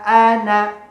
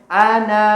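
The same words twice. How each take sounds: First: The final vowel is kept short. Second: The final vowel is drawn out long. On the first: The speaker calls it right. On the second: The speaker calls it wrong. "nggak boleh"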